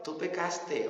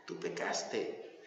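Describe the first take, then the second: First: Said in the usual way. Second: Breathy whispered verdict, slow. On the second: Shown as a demonstration. Preacher repeats God's verdict to the sinner, whispered. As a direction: let it sink in with a hush.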